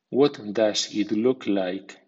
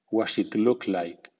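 First: Every word is pronounced fully and carefully. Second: The words are reduced and run together. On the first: "primero en estilo formal" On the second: "a continuación en versión informal o coloquial"

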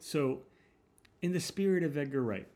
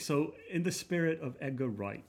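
First: It is said in the speaker's plain accent. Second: It is said in a put-on British accent.

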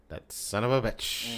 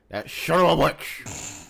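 First: It is said in the speaker's normal voice. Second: It imitates a British actor playing an American.

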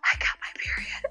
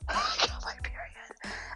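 First: It is said loudly. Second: It is said quietly.

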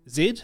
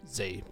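First: It is said the New Zealand way. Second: It is said the American way.

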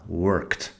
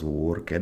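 First: The word ends in a single kt sound. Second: The ending is said as an extra syllable. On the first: The speaker calls it right. "la E como si no estuviera ahí, kt al final" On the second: The speaker calls it wrong. "porque no es worked"

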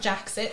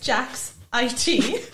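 First: The ending is said as the word 'it'. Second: The ending is said as the letters I-T. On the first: The speaker calls it wrong. "so it's not Jaxit" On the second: The speaker calls it right. "Sorry, it's Jax IT"

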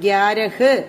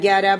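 First: The final h is pronounced fully. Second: The final h is not pronounced at all. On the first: The speaker calls it wrong. "ഗ്യാരഹ് അങ്ങനെ പറയരുത്" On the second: The speaker calls it right. "അവര് പറയുന്നത് ഇങ്ങനെയാണ്"

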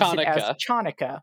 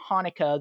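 First: The word begins with an English ch sound. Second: The word begins with a breathy h sound. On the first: The speaker calls it wrong. "the CH makes the normal English CH sound and pronounce Chanukah" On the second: The speaker calls it right. "it's better that they pronounce it Hanukkah"

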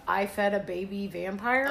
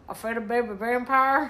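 First: It is said in a plain accent. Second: It is said in a Southern accent.

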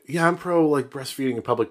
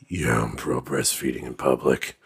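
First: It is said in a normal, ordinary voice. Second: It is said in an exaggerated put-on voice. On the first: "what if a guy was like" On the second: "but he said it like this / I just wanted to do the voice"

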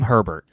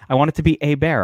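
First: The surname is said the plain English way. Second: The surname is said a French-Canadian way. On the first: This is the player's actual name. "I know his name. I don't want to call him Herbert" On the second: This is a playful nickname, not the real name. "I want him to be like basically a hockey player from Canada"

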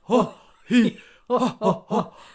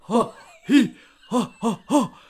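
First: It is said in a Santa Claus voice. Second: It is said in a Santa Claus voice.

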